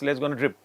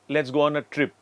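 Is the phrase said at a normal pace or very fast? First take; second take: very fast; normal. First: The phrase is said very fast. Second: The phrase is said at a normal pace.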